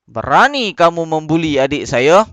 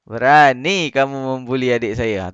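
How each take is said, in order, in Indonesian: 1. Diucapkan dengan keras, dengan nada marah. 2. Diucapkan dengan datar, tanpa nada marah. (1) "dia intonasi dia mesti kena keras lah. Kena marah. ... macam tu" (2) "Tu tak tepat"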